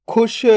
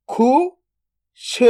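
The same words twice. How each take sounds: First: Said in the usual way. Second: "खुश" split into खु, then श, very slow; drawn-out breakdown of "खुश"; sound by sound. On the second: Shown as a demonstration. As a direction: sound out खु ... श with a long gap. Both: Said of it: "तो मिलके बन जाएगा".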